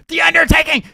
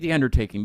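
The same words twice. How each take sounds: First: The name is said loudly, like an exclamation. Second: The name is said flatly, without emphasis. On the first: It matches the exclamation point in the name. The speaker calls it right. "there's an exclamation point at the end" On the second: It sounds incomplete and invites questions. The speaker calls it wrong. "you can't just say The Undertaking"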